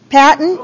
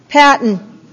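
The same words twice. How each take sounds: First: Patton with a questioning rise at the end; calling again, rising. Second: Said in the usual way. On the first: Real, not acted.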